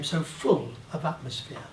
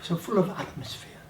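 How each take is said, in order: First: The word full carries the strongest stress. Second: The word atmosphere carries the strongest stress.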